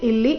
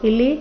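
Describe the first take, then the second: Both takes have the same delivery.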